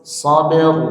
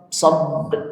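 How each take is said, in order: First: The final r sound is clearly heard. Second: The final r sound is missing. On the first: The speaker calls it right. "Ra-nya tetap tebal" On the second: The speaker calls it wrong. "bukan sab sab, nah, ra-nya kurang muncul"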